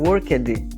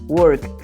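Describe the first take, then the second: First: The word ends with an extra ed syllable. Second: The word ends in a short t sound. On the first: The speaker calls it wrong. "Não tem esse som de ed aí no final" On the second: The speaker calls it right. "O som é T mesmo"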